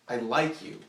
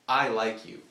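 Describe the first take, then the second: First: The stress is on "like". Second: The stress is on "I".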